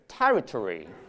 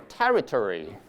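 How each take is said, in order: First: The -ory ending is weak and reduced. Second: The same.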